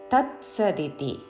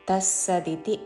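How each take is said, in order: First: The middle cluster is pronounced 'ts'. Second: The middle cluster is pronounced 'ss'. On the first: The speaker calls it right. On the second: The speaker calls it wrong.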